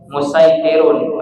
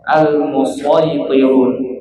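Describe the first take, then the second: First: The s sound is plain and light. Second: The s sound is emphatic and heavy. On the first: "pakai sin ya" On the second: "musaytirun dibaca dengan huruf shad ya"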